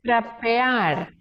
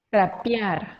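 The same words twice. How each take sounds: First: The middle vowel sounds like E. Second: The middle vowel sounds like I. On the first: "generalmente las personas no van a decir trapear" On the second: "esa E casi que se transforma en una I y suena un poquito como"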